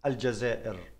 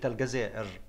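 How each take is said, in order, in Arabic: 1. نُطقت بالنطق الجزائري. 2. نُطقت بالنطق المصري. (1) "ها أنا ذا أنطقها زي ما حضراتكم عاوزين" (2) "عندنا النطق في مصر إحنا بنقول عنها دولة الجزائر"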